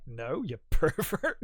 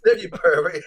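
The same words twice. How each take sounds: First: Laughing quote. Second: Louder mock retort. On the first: Retold or imitated. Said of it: "He's like". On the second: Co-host repeats Randall's line with a louder, punchier retort. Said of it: "he says".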